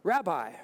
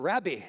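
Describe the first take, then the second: First: It is said with an ordinary English pronunciation. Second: It is said with a local Jerusalem pronunciation.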